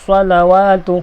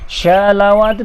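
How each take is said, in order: First: It starts with a heavy, emphatic s sound. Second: It starts with a sh sound. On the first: The speaker calls it right. "Dan misalnya mubarakatus salawatu" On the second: The speaker calls it wrong. "ataupun syalawatu tak betul"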